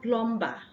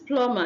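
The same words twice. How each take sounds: First: The b sound is pronounced. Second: The b sound is not pronounced. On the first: The speaker calls it wrong. "and not plumber" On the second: The speaker calls it right. "This is plumber"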